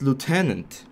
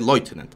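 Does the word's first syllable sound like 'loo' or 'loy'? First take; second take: loo; loy. First: The first syllable sounds like 'loo', then 'tenant'. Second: The first syllable sounds like 'loy', as in loitering. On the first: The speaker calls it right. "Lieutenant is the proper way to say it. Lieu and then tenant" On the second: The speaker calls it wrong. "I thought that it was pronounced Leutnant"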